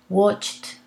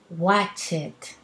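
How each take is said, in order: First: The ending joins the word as one syllable. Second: The ending is said as an extra syllable. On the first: The speaker calls it right. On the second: The speaker calls it wrong.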